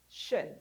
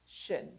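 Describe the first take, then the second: No difference in how they are said.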